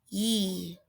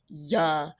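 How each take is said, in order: First: The y sound is said with no vowel after. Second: The y sound is followed by an extra vowel. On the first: The speaker calls it right. "So Y says ye" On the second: The speaker calls it wrong. "we're adding that schwa to the end again"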